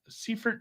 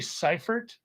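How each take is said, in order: First: The first vowel sounds like 'ee'. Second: The first vowel sounds like 'eye'.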